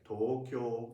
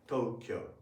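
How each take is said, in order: First: It is said with four even, equal beats. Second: It is said as two English syllables. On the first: "if you speak Japanese, it should be pronounced like Tokyo" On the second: "it is right in the English sound system"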